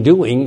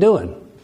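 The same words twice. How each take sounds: First: The ending is said with a full ng sound. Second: The ending is said as a plain n sound. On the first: "You don't say going, thinking, doing" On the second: "You say going, thinking, doing"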